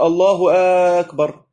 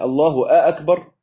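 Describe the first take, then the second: First: Loud "الله", pause, then "أكبر"; wrong split takbir. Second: Said in the usual way. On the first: Shown as a demonstration. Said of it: "ما ينفعش نقول". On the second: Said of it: "يعني الله أكبر".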